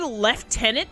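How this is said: It is said with an F sound, 'leftenant'. This is the British way of saying it. "British people just say lieutenant"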